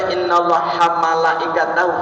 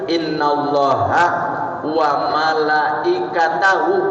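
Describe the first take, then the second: First: The w sound is dropped, giving hamalaikatahu. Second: The w sound before malaikatahu is clearly pronounced. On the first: The speaker calls it wrong. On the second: The speaker calls it right.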